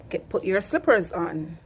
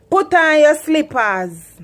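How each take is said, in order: First: Said in the usual way. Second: Loud, higher Patois order, slow; Jamaican parent command. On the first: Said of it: "Simple mean". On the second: Shown as a demonstration. Jamaican mother telling child to put slippers on. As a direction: snap it out like a Jamaican mum. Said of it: "Here in Jamaica, we say".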